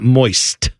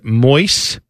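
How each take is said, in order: First: The word ends with a final T sound. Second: The word ends without a final T sound. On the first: This is the usual way to say it. "not moist, with a T" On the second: This is how someone's grandmother said it. "No T on the end of that"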